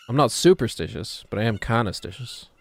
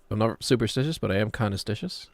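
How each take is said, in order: First: "superstitious" with a firm punch on "super"; stress on super. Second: Said in the usual way. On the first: Shown as a demonstration. Streamer trying out a quote's delivery, stress on "super" in "superstitious". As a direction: lean on the "super" in "superstitious", then ease off. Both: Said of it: "the correct way to deliver that".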